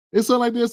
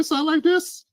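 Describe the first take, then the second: First: Said in the usual way. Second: High, prissy put-on voice mocking their talk; a mocking send-up of how they articulate; mocking elite voice. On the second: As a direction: lift it up high like a proper elitist. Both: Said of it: "Notice the way that they talk".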